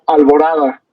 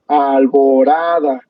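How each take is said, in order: First: Said in the usual way. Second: "alborada" slowly drawn out, al-bo-RA-da; syllable-by-syllable demo. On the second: Shown as a demonstration. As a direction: stretch each syllable of "alborada" to expose the stress. ("alborada" lento, sílaba por sílaba, marcando -RA-) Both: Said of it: "si utilizamos todos los aplausos".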